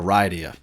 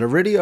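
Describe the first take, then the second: First: Aridia said uh-RYE-dee-uh; long-i pronunciation. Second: Aridia said uh-RID-ee-uh; short-i pronunciation. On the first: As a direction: say Aridia with an "eye" sound, as in "ride". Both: Shown as a demonstration. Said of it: "is it Aridia or Aridia?".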